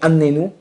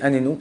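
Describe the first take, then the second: First: The middle n sound is doubled and held longer. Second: The middle n sound is short, without doubling. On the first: Make me suffer. "c'est fais-moi souffrir" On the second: Answer me. "c'est réponds-moi"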